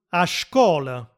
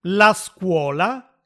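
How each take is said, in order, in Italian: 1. La parola inizia con il suono 'sh'. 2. La parola inizia con il suono 's' semplice.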